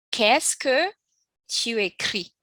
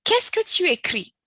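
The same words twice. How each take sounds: First: Said in the usual way. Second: Much higher, louder model question; teacher stresses the question; emphatic model question. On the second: Shown as a demonstration. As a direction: call out the example question high. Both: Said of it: "go straight to the example".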